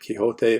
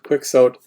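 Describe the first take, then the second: First: The name is said with a Spanish-style sound. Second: The name is said with an anglicized sound. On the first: "we should be pronouncing it Quixote" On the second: "in English departments we pronounce it Quixote"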